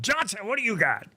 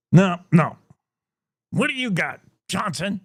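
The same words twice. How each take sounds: First: Put-on higher, softer stab at an English accent; the editor redone in a put-on English accent; English accent attempt. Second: Put-on a barely-there English accent from a gruff editor; weak English accent, editor barking at Johnson; failed English accent. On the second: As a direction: try an English accent and mostly miss. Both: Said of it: "I can't do an English accent".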